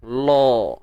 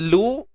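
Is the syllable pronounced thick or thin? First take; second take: thick; thin. First: The syllable is said thick, with a darker vowel. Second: The syllable is said thin, with a light vowel. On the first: The speaker calls it wrong. "jangan lo" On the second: The speaker calls it right. "nipis je"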